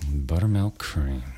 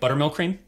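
First: It is said in a romantic, intimate tone. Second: It is said in a businesslike, transactional tone.

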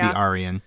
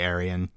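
First: The name is said in a careful, precise way. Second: The name is said in a casual, relaxed way. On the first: The speaker calls it right. "it should be Arian" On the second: The speaker calls it wrong. "I get lazy sometimes with my pronunciations"

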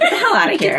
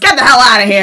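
First: It is said in a flirty, coy tone. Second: It is said in a plain, dismissive tone.

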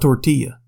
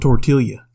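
First: The double L is said as a Y sound. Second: The double L is said as an L sound. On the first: The speaker calls it right. "I'll fix that then" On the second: The speaker calls it wrong. "How do you pronounce it?"

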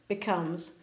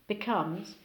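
No difference in how they are said.

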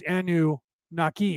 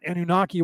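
First: It is said as two parts with a break. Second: It is said as one unbroken word. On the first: The speaker calls it right. "it was Anunnaki" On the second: The speaker calls it wrong. "not Anunnaki, one word"

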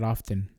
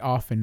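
First: The t sound is pronounced. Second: The t sound is silent. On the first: The speaker calls it wrong. "not often" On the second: The speaker calls it right. "you don't say the T. The T is silent"

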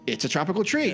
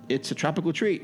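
First: It is said with lively, enthusiastic energy. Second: It is read flatly with little energy. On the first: The speaker calls it right. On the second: The speaker calls it wrong.

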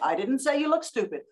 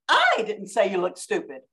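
First: No word carries strong emphasis. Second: The emphasis falls strongly on the first word.

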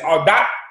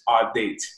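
First: The name is said the French Haitian way. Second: The name is said the English way.

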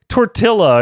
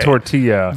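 First: The double L is said as an L sound. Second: The double L is said as a Y sound. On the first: The speaker calls it wrong. "it's like when you say, like" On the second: The speaker calls it right. "and they're like, hey, man, you know, it's okay"

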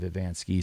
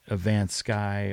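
First: The last syllable rhymes with 'ski'. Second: The last syllable rhymes with 'sky'. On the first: The name is said the way its owner says it. The speaker calls it right. "instead of" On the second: Others misread the name from its spelling. The speaker calls it wrong. "people will say my last name different"

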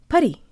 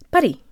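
First: The stress falls on the first syllable. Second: The same.

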